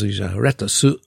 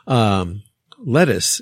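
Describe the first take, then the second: First: It is said with a Japanese katakana pronunciation. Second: It is said with a native English pronunciation.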